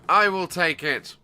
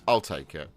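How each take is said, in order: First: It is said in a grand, dramatic way. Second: It is said in a plain, casual way. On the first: It sounds like a famous line from the films. "if you just change the inflection" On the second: The player is simply choosing to take priority. "if you said"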